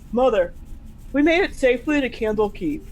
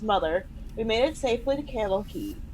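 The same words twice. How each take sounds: First: It is read in Jigga's character voice. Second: It is read in the speaker's own voice.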